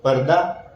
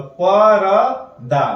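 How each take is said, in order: First: पर्दा said as one word, r fused into d; joined correct word. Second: परदा read slowly as pa-ra-da; slow letter-by-letter reading; sounded out slowly. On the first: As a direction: blend it into पर्दा. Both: Shown as a demonstration. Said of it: "यदि त को द बना के हम पढ़ते हैं".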